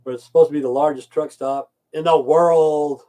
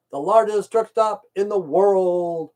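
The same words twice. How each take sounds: First: Said in the usual way. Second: Higher and slow, every word weighted; slow emphatic repeat. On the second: Real, not acted. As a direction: hammer it home, slowly.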